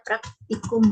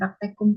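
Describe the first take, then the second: First: The second syllable has an 'i' vowel. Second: The second syllable has an 'e' vowel. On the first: The speaker calls it right. "kita padankan dengan kosakata lain yang ada dalam bahasa Indonesia itu ada praktikum" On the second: The speaker calls it wrong. "Jadi bukan praktekum kan ya"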